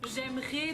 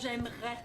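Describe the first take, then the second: First: The vowel has a standard French sound. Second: The vowel has a Quebec French sound.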